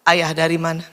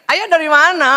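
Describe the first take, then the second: First: It is said flatly, without expression. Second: It is said warmly, with lively expression.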